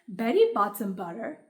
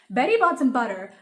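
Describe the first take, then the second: First: It is said at medium speed. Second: It is said very fast.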